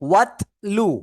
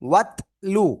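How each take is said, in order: No difference in how they are said.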